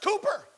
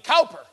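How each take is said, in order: First: The first syllable rhymes with 'coo'. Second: The first syllable rhymes with 'cow'. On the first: "it's pronounced Cooper over there" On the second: "I thought that's how you pronounce C-O-W-P-E-R"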